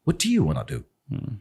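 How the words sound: It is said in a careful British accent. "ब्रिटिश इज दिस"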